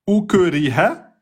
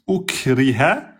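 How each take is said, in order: First: The k is released with an echoing bounce, no air. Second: The k is released with an audible puff of air. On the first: The speaker calls it wrong. "vous faites une qalqala" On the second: The speaker calls it right. "on entend bien le, sou, le souffle"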